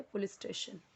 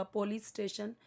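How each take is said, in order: First: पुलिस with a short u in the first syllable; soft model पुलिस starting "pu"; correct pronunciation. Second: पुलिस with an o in the first syllable; पुलिस starting "po", not "pu"; wrong pronunciation. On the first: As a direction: say पुलिस softly as "pu-lis". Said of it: "वो पुलिस नहीं होता". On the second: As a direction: say पुलिस as "po-lis". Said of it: "तो wrong हो जाएगा". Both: Shown as a demonstration.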